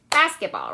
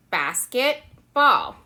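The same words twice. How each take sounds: First: Said in the usual way. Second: Two words, each said apart with a pause; basket, then ball, pulled apart; separate words. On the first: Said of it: "Let's bring it together". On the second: Shown as a demonstration. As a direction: split basket and ball clearly. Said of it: "let's use one hand for basket and let's use one hand for ball".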